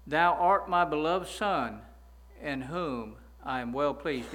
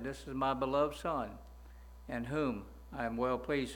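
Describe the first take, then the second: First: Slow, louder solemn voice of God; slow, loud reverent recital of the verse; solemn proclamation. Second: Said in the usual way. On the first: Retold or imitated. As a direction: proclaim each word slowly and loudly from heaven. Proclaims the phrase he examines.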